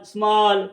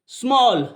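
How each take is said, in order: First: "स्मॉल" said as "smaal", open aa; long aa sound. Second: "स्मॉल" said as "smawl", rounded o; o sound. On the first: Teacher revising rule one, "स्मॉल" with aa. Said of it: "बड़े आ की sound निकाल रहा है". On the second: Teacher showing rule five, "स्मॉल" with o. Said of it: "ओ की sound भी दे रहा है". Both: Shown as a demonstration.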